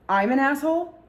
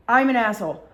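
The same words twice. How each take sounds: First: "asshole" rising high in disbelief; retold incredulous rise on "asshole"; indignant question. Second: "I'm" punched loud, then falling; retold affronted fall after a loud "I'm"; indignant statement. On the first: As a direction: throw "asshole" back as an offended question. Jay throws insult back as question. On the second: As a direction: hit "I'm" hard and let "asshole" drop. Jay repeats insult as statement.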